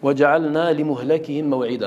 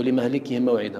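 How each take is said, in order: First: لمهلكهم said as limuhlakihim, u then a; لمهلكهم pronounced limuhlakihim; muhlakihim reading. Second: لمهلكهم said as limahlikihim, a then i; لمهلكهم pronounced limahlikihim; mahlikihim reading. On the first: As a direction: read لمهلكهم with u after the lam, limuhlakihim. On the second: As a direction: read لمهلكهم with a after the lam, limahlikihim. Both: Shown as a demonstration. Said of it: "ما معنى المهلك؟".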